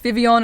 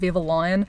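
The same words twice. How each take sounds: First: The double L is said as a Y sound. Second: The double L is said as an L sound. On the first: The speaker calls it right. "it's Vivillon. It's kind of like the double L in like French pronunciations" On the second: The speaker calls it wrong. "Before you start calling it"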